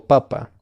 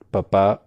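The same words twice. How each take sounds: First: Papa with the first syllable stressed. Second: Papá with the second syllable stressed; stress on last syllable. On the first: Teacher naming the potato word, first-syllable stress on papa. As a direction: hit the opening pa of papa. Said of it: "Si está en la primera sílaba el acento". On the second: Teacher contrasting father with potato, final stress on papá. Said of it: "el acento, si está en la última sílaba". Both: Shown as a demonstration.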